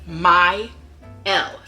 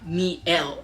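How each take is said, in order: First: The first syllable sounds like "my". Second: The first syllable sounds like "me". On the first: The speaker calls it right. "it is my L" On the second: The speaker calls it wrong. "it is not me L"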